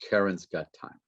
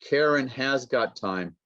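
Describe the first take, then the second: First: The word 'has' shrinks to an s sound. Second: The word 'has' is said in full.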